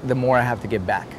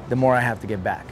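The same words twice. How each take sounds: The two takes are said the same way.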